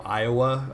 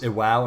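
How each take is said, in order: First: The name is said like the state Iowa. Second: The name is said as ee-wah-oh. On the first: The speaker calls it wrong. "instead of you know Iowa" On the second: The speaker calls it right. "it's spelled I W A O, so I would think it was Iwao"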